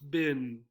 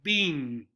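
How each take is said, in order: First: The vowel is a short i, like 'bin'. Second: The vowel is a long e, like 'bean'. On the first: "we do hear a lot of bin" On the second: "they make the two E's a long E sound, so it sounds like bean"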